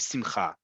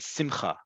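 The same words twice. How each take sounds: First: The stress is on the last syllable. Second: The stress is on the first syllable. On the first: This is the standard modern Hebrew pronunciation. "In modern Hebrew, it is only simcha" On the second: "it's usually on the second to last syllable"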